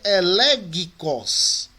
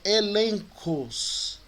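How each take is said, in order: First: The middle consonant is pronounced as a hard g. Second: The middle consonant is pronounced as an n. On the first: The speaker calls it wrong. "Ao invés de ser elegicos" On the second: The speaker calls it right. "é elencos"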